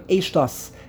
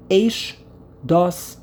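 First: It is said as one word without a pause. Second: A slight pause separates the two parts. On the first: "it's spelled as one word" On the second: "a slight pause between Eish and Dos"

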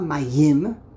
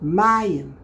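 First: The stress is on the last syllable. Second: The stress is on the first syllable. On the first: The speaker calls it wrong. "It's not mayim. Mayim would be milara. That's incorrect" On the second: The speaker calls it right. "underneath the mem, the second to last syllable, which happens to be the first syllable"

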